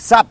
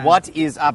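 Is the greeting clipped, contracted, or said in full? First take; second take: clipped; full. First: Only a single short syllable is said. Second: Three separate words are said without linking. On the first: "แล้วมีสั้นกว่านี้อีกคือ" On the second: "แต่ไม่มีทางที่จะได้ยินฝรั่งพูดแบบนี้นะ"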